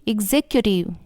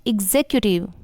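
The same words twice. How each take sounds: Both takes have the same delivery.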